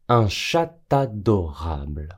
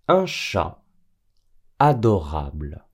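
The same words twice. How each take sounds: First: A t sound links chat to adorable. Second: Chat and adorable are separate, with no t sound. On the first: The speaker calls it wrong. "Et non" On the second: The speaker calls it right. "Quand un nom singulier est suivi d'un adjectif"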